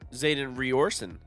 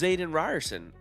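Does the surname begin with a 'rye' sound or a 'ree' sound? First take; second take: ree; rye. First: The surname begins with a 'ree' sound. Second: The surname begins with a 'rye' sound. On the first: This is how a reader guessed it. The speaker calls it wrong. "I've been saying Zayden Riorson" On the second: This is the author's pronunciation. The speaker calls it right. "how do you know it's Zayden Ryerson"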